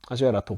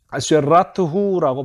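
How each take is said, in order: First: The word ends with a plain 'o' vowel. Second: The word ends with a 'hu' sound. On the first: "오라고 발음하지 않고" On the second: "아마 후라고 발음했을 가능성이 높아요"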